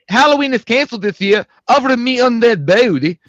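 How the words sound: It is read in a put-on character voice.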